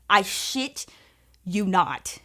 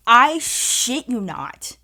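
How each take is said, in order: First: "I shit" quick, then lean on "you" and drop on "not"; quick repeat. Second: Slow and loud, every word "I shit you not" punched apart; emphatic. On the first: Repeating the claim to her viewers, stress on you. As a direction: toss it off again with the weight on "you". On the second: Telling friends an unbelievable twist, slow emphatic stress. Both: Real, not acted.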